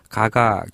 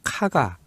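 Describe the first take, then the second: First: The name begins with a plain, unaspirated consonant. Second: The name begins with an aspirated consonant. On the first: The speaker calls it wrong. "가가 교이치로라고 했는데" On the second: The speaker calls it right. "요 발음도 정확하게는 카가"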